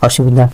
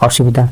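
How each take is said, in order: The two takes are said the same way.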